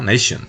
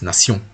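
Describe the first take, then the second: First: It is said the English way, with 'sh'. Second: It is said the French way, with 's'. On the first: "uno diría en inglés" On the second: "Pero acá es nación"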